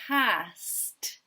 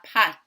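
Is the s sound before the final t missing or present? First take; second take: present; missing. First: The s and t sounds are both pronounced. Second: The s sound before the t is dropped. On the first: The speaker calls it right. "Let's think about our past" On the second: The speaker calls it wrong. "rather than our pat"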